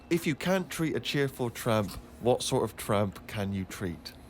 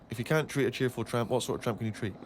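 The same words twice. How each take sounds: First: The sentence is read at a normal pace. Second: The sentence is said quickly, like a tongue twister.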